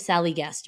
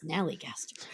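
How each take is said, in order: First: The name starts with a plain S sound. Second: The name starts with an Sn sound. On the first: The speaker calls it wrong. "I want to call it the Sallygaster" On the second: The speaker calls it right. "It's a Snallygaster"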